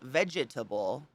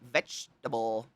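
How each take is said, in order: First: All four syllables are pronounced separately. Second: It is shortened to three syllables. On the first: "It's literally spelled vegetable" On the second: "when we shorten it, we went vegetable"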